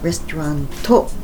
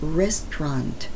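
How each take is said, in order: First: An extra vowel follows the final T. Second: The word ends on a faint T. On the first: The speaker calls it wrong. "not restauranto either" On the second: The speaker calls it right. "It's restaurant. About this much"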